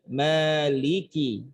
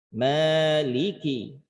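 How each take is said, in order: No difference in how they are said.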